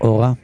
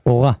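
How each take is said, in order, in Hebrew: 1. ההטעמה על ההברה הראשונה. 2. ההטעמה על ההברה האחרונה. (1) "כבר אל תקריא לעצמך אורה" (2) "אורה מלרע"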